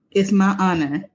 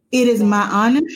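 First: Said in the usual way. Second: Louder, lifted announcement of an honor; excited build-up. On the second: Real, not acted. Host announcing her cousin as a guest, louder and lifted. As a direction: ramp up the joy before the big reveal.

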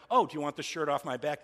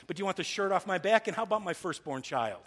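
First: Mocking, pointed sarcasm; sarcastic. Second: High, loud sarcastic jab; sarcastic mock offer. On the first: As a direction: offer it up with sarcastic scorn.

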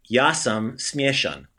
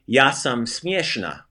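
First: Ja sam smieshan slowly, syllable by syllable; slow careful Croatian. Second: Ja sam smieshna slowly, syllable by syllable; slow careful Croatian. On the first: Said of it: "the male way of saying it". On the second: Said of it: "if you're a lady, you would say". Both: Shown as a demonstration.

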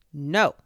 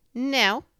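First: Abrupt loud refusal; a loud, short denial; voice from a hole. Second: High, loud put-on denial; disguised voice. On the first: Hidden rabbit answers a caller, curt denial. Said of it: "said a voice". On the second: Rabbit hiding who he is, disguised high voice. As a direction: push the pitch up to disguise yourself. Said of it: "in a different sort of voice this time". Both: A narrator's reading.

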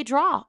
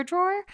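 First: "draw" for drawer, the final R dropped; Jersey R-less drawer. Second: "drawer" with the ER at the end sounded; drawer with final R. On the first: Mom recalling her old Jersey accent, "draw" with no final R. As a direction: say "draw" slowly, with no R at the end. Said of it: "I would say draw all the time". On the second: Mom showing the corrected word, "drawer" with its final R sounded. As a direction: say "drawer" ending on a clear R. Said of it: "there was an E R at the end of the word drawer". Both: Shown as a demonstration.

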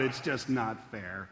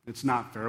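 First: Soft, slow, deflated complaint; a gentle imitation of someone whining; mock lament. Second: Said in the usual way. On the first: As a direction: sigh it out like a tired student. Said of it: "you might cry out". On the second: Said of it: "You're right".

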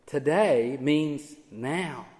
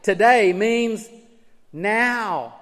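First: Today means now, said slowly and softer; quiet, slow emphasis. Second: Today means spoken slowly, then now; slow weight on Today, then a pointed now; emphatic today. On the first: Preacher to congregation, quiet slow Today means now. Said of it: "It's emphatic". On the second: Preacher to congregation, stressing Today slowly. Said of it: "That word today is emphatic". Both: Shown as a demonstration.

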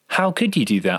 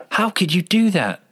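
First: Said in the usual way. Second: Higher, louder angry outburst; mock angry. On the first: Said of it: "newbie sound designers you hear". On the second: Shown as a demonstration. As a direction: snap it at the other person in anger. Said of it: "angry with each other and they're saying".

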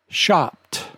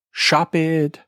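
First: Shopped with the ed as a t, one syllable; correct pronunciation. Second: Shopped said as "shop-id"; wrong pronunciation. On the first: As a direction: say "shopped" like "shopt". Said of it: "the E D ending sounds like a t". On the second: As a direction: add an extra syllable to "shopped". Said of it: "If you say". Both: Shown as a demonstration.

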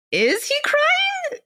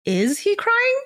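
First: Very high, drawn-out astonished question; stunned disbelief. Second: High, rising astonished question; disbelieving. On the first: Frozen man asking himself once more, utterly stunned. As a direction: stretch it out slowly, way up high. Narrated shock, repeated slower. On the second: Frozen man noticing the other's tears, disbelieving. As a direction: ask it in stunned disbelief. Narrated shock, first take. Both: A narrator's reading.

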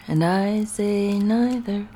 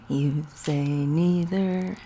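First: Slow sung line, "neither" as NIGH-ther; singing. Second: Slow sung line, "neither" as NEE-ther; singing. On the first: Woman sings the other side of a disagreement, "neither" as NIGH-ther. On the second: Woman sings about a silly disagreement, "neither" as NEE-ther. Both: Acted.

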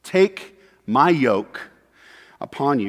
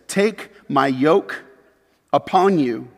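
First: "my" stressed, very slow and falling. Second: "Take" drawn out and rising; slow stress on Take. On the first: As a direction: press the word "my", slowly. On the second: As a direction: lean slowly on "Take my yoke". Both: Shown as a demonstration. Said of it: "then he says this".

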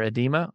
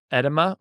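First: "edema" stressed in the middle, eh-DEE-muh; "edema" with a long EE in the middle; second pronunciation guess. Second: "edema" stressed on the first syllable, ED-uh-muh; "edema" with a short first E and weak middle vowel; first pronunciation guess. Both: Shown as a demonstration. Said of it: "I don't really know what that is".

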